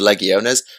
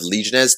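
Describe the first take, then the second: First: It is said with a Latin-style pronunciation. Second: It is said with a non-Latin pronunciation. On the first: The speaker calls it right. "one because Latin and two because awesome" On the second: The speaker calls it wrong. "all my previous pronunciations of Legiones"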